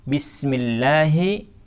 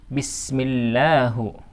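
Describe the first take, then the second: First: The word ends with an i vowel. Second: The word ends with a u vowel. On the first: The speaker calls it right. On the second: The speaker calls it wrong.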